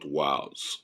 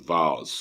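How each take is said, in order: First: The word is said with an English pronunciation. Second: The word is said with a German pronunciation. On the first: The speaker calls it wrong. "not Waals" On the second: The speaker calls it right. "you pronounce as Waals because it's a German word"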